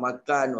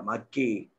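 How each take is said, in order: First: Said in the usual way. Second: Kelantan accent. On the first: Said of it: "Kita cakap makan". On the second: Shown as a demonstration. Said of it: "orang Kelantan cakap makan".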